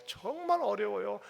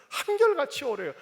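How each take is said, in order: First: Said in the usual way. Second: 한결같이 pushed much higher and louder, falling after; 한결같이 punched up high; stress on 한결같이. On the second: Shown as a demonstration. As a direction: lean hard on 한결같이 then let 어려워요 drop.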